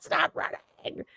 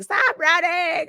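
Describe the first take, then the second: First: Breathy whisper, dragged out slowly; whispered plea. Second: High-pitched yelled plea, held back in volume; mock scream. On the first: Retold or imitated. Friends pleading with her to stop, slow whisper. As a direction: hiss it under your breath, slowly. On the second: Everyone in the car yelling at her to stop, mock high yell. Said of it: "everyone is screaming".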